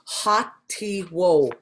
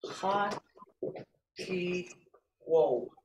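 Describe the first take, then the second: First: "ha ti wo" drawn out slowly; slow model word. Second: "Ha ti wo" split into three soft syllables; model word, syllables apart. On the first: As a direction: say "ha ti wo" slowly so they can copy. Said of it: "I would say ha ti wo, like this here". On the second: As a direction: give "Ha ti wo" one syllable at a time. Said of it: "like this here". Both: Shown as a demonstration.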